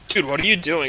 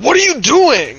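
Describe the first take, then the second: First: It is said in a casual, calm way. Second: It is yelled in an angry, heated way.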